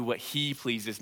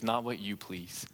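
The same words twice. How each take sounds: First: "he" stressed and set against "you"; contrast stress. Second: Slow, soft, "not" stressed; contrast stress. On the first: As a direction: lean on "he" in "what he pleases". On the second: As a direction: lean on "not" and let it fade. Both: Shown as a demonstration.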